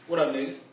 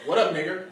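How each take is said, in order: First: The last word ends in a relaxed 'uh' sound. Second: The last word ends in a full 'er' sound. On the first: It sounds smooth and casual. The speaker calls it right. "It sounds like a roll" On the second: It sounds awkward and uncool. The speaker calls it wrong.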